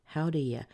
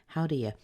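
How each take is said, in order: Both takes have the same delivery.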